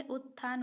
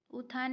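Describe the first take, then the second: First: "उत्थान" with a held double t, ut-thaan; correct form utthan. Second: "उत्थान" with a single th, u-thaan; wrong form uthan. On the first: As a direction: hold the t before th in "उत्थान". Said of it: "तो भी लगेगा". ("उत्थान" में आधा त साफ़ बोलें) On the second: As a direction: say "उत्थान" without doubling the t. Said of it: "उत्थान नहीं होता है". ("उत्थान" को उ-थान बोलें, आधे त के बिना) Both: Shown as a demonstration.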